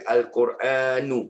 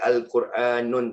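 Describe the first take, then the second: First: The word ends on a short u vowel. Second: The word ends with an added n sound. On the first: The speaker calls it right. "mesti Al-Quranu" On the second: The speaker calls it wrong. "Tak boleh Al-Quranun, tak boleh"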